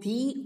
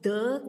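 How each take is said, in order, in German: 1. Das Wort endet auf einen langen ee-Vokal. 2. Das Wort endet auf einen kurzen, schwachen Vokal. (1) "So when two vowels are together in two words, we pronounce this the as the" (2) "Because the cleverest, C is a consonant. So the pronunciation of the is the"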